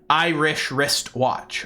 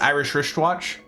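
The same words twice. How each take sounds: First: Each sound is said slowly and distinctly. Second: The sounds flow quickly together as one phrase. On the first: The speaker calls it right. "if I enunciate very intentionally" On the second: The speaker calls it wrong. "if I try to say it as just a phrase"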